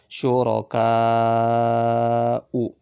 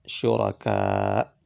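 First: The word ends with a short final vowel. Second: The word ends without the final vowel. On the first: The reader continues without stopping. "u-nya dibaca pendek" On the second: The reader stops at this word. "Ini kalau wakaf kan ulama, syuraka"

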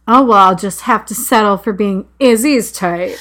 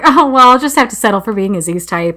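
First: It is said in a threatening tone. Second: It is said in an offhand tone.

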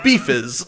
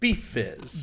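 First: It is said fast, with the F's blurred together. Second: Both F sounds are said clearly and separately.

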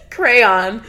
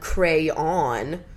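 First: Two syllables with a weak second syllable. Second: Two syllables, the second rhyming with dawn. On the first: "With two syllables sounds like crayon, which is me" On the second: "With two syllables where the second syllable rhymes with dawn"

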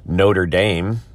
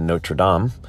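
First: It is said the local Indiana way. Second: It is said the French way. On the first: This names the college in Indiana. "the very famous college" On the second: This names the original French place. "as opposed to Notre Dame"

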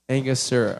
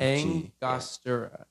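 First: The word is said without an N sound. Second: The word is said with an N sound. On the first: The speaker calls it wrong. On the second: The speaker calls it right.

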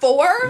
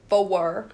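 First: Four is said plainly in one syllable. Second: Four is drawn out into two syllables, Tennessee-style.

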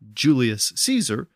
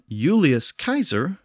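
First: Caesar begins with a soft S sound. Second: Caesar begins with a hard K sound. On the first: This is the later pronunciation shaped by French. "the K sound shifted to an S sound" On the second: This is the older Latin pronunciation. "the C always had the K sound in Latin"

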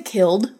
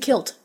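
First: The word ends with a d sound. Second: The word ends with a t sound. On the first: "You don't say killed" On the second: "You say kilt"

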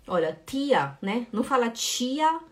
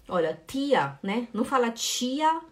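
The two takes are said the same way.

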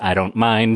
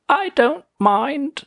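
First: It is said in the speaker's normal voice. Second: It is said in Lightbulb Man's British voice.

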